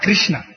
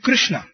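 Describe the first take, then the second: First: The word is said with weak emphasis. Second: The word is said with strong emphasis. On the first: The speaker calls it wrong. "and not Krishna" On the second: The speaker calls it right. "we have to give that much amount of emphasis on the word. It's Krishna"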